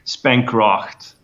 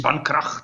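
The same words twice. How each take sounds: First: The name is said with an English pronunciation. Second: The name is said with a German pronunciation. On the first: "The English people usually usually say spankracht" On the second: "if you pronounce it in a German way, you could say spankracht, like this"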